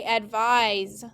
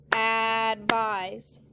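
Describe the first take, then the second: First: Said in the usual way. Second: "advise" as two drawn-out beats; syllable by syllable. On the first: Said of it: "everyone say advise". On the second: Shown as a demonstration. Teacher has students clap it, "advise" stretched syllable by syllable. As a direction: hold each syllable of "advise". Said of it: "Clap it".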